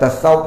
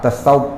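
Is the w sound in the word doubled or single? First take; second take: single; doubled. First: The w sound is single and short. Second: The w sound is doubled and held longer. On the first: The speaker calls it wrong. "Kita Melayu ni senang sebut tasawuf" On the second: The speaker calls it right. "waw itu syaddah dhammah"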